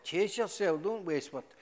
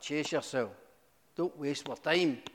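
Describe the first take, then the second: First: Louder, higher exasperated brush-off; louder mock impatience; exasperated police. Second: A hint of a bored officer brushing him off; fairly plain, lightly voiced dismissal; mild brush-off; dismissive police. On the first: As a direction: throw it back like a fed-up officer. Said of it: "they went". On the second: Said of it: "they're like".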